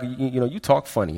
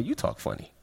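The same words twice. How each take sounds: First: Said in the usual way. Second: Hushed, breathy retort; whispered comeback. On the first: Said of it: "they're like". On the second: Retold or imitated. Boy answering classmates who mock his accent, whispered back. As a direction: throw it back under your breath. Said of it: "And I'm like".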